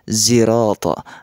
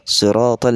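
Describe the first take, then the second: First: The word begins with a z sound. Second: The word begins with an s sound. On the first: This is the reading of another recitation tradition. "dengan bunyi zai" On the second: This is the common reading. "kita membaca"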